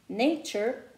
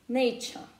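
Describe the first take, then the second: First: It ends in a soft r-coloured vowel. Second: It ends in an open vowel without r. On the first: "instead of American accent will be nature" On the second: "in British accent it will be nature"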